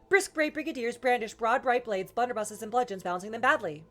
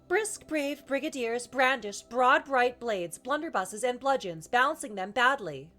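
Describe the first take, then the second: First: It is said quite fast, quicker than before. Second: It is said at an ordinary speaking speed. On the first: "more fasterer" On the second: "start kind of normal speed"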